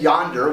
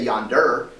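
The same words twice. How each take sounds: First: The stress is on the first syllable. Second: The stress is on the second syllable. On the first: The speaker calls it right. "When we say yonder" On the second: The speaker calls it wrong. "we don't say yonder"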